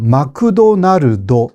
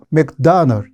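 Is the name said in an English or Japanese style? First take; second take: Japanese; English. First: It is said with Japanese-style added vowels. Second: It is said with English-style clipped syllables. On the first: The speaker calls it wrong. "마크도날드 이렇게 말합니다" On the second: The speaker calls it right. "실제로 영어로 하면"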